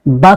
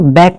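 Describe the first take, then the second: First: The vowel is said as an 'aa' sound. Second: The vowel is said as an 'ae' sound. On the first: The speaker calls it right. "आ का उच्चारण आता है" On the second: The speaker calls it wrong. "इसको बैक नहीं बोलना है"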